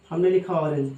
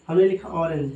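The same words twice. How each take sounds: The two takes are said the same way.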